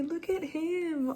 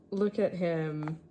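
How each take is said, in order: First: Much higher, slow doting coo on "Look at him". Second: Said in the usual way. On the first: Real, not acted. Fan showing viewers her drawing of Lester, slow high cooing baby talk. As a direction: coo it like a proud owner. Gushing over a favourite drawing.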